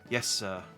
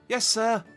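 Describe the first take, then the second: First: It is said in a floaty, airy voice. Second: It is said in a high-pitched voice.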